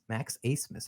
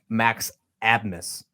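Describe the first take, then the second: First: The surname begins with an 'ace' sound. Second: The surname begins with an 'ab' sound. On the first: The speaker calls it right. "His last name is actually pronounced Acemess" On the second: The speaker calls it wrong. "It looks like Max Abmas"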